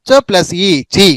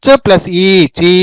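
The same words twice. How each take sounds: First: చి with a short i; short vowel. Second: చీ with a drawn-out ee; long vowel. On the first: Teacher combining చ with each vowel, short vowel. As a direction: keep చి brief. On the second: Teacher combining చ with each vowel, long vowel. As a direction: stretch ఈ and చీ. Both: Shown as a demonstration. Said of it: "చ అనే దానికి ఆ కలిపితే చ".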